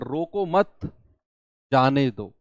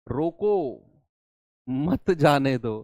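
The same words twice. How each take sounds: First: There is a pause after 'mat'. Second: There is a pause after 'roko'. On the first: Don't stop him, let him go. "मैंने comma बीच में लगा दिया" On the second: Stop him, don't let him go. "इसी comma को हटाकर यहां पर लगा दूं"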